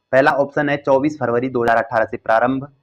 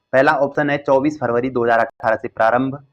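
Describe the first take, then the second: Both takes have the same delivery.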